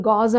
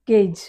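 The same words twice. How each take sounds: First: గాజ్ with a long "aa" vowel; common mispronunciation. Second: Falling one-syllable గేజ్, rhymes with cage; corrected pronunciation. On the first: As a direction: say గాజ్ like "gauze". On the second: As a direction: say గేజ్ as "gayj". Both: Shown as a demonstration.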